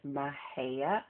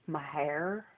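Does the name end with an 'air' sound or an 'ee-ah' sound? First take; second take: ee-ah; air. First: The name ends with an 'ee-ah' sound. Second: The name ends with an 'air' sound. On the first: This is the standard pronunciation. The speaker calls it right. "that's how you pronounce it" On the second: This is how many locals say it. The speaker calls it wrong. "A lot of the locals who live there that call it Mahair"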